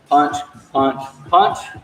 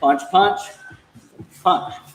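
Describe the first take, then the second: First: The three words come at an even pace. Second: There is a pause before the last word. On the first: "instead of going" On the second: "See how I kind of pause at the end?"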